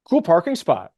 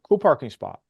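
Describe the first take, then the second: First: It sounds a little snarky and pointed. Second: It sounds plain and neutral.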